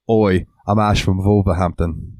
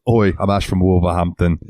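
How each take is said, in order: First: Lightly imitating a British Wolverhampton accent, slow; a mild mock Midlands British "Oi". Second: A second light British imitation of "Oi, I'm Ash from Wolverhampton"; mock British "Oi" with the w of "Wolverhampton" kept; British accent. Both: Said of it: "said it so British".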